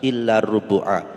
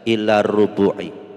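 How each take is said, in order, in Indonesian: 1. Kata terakhir berakhir dengan vokal a. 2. Kata terakhir berakhir dengan vokal i. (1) "maka dibaca fathah nasab" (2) "tidak boleh dibaca"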